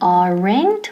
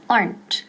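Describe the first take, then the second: First: The word is said as two syllables. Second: The word is said as one syllable. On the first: The speaker calls it wrong. "No es aren't ni aren't" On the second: The speaker calls it right. "Quedan una sílaba. Aplastamos esa E"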